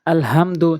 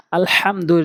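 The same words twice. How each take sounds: First: "আলহামদু" with a light, plain h; mistaken soft HA. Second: "আলহামদুর" with a strong throaty ha; correct deep HA. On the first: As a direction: weaken the H in "আলহামদু" to an ordinary h. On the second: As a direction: press the H of "আলহামদুর" from mid-throat. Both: Shown as a demonstration. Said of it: "জায়গায় বলে".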